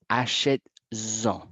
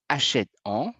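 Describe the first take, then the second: First: It is said with a z sound before en. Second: It is said with no z sound before en. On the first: The speaker calls it right. "je vais mettre ce petit S en plus pour avoir le son" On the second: The speaker calls it wrong. "mais je n'ai pas la musique"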